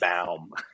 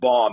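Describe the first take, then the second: First: The name has a German pronunciation. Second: The name has an Americanized pronunciation. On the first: "the proper Baum"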